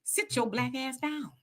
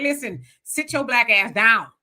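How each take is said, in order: First: Slow stern warning. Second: A hint of a stern grandmother; scolding grandmama. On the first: Retold or imitated. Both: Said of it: "they be like".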